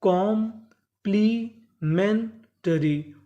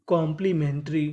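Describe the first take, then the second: First: complementary in four slow chunks, कॉम-प्ली-मेन-टरी; very slow teaching breakdown of complementary; syllable by syllable. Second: Said in the usual way. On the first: Shown as a demonstration. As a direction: break complementary apart with clear pauses. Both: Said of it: "टुकड़ों में तोड़ तोड़ के पढ़ें".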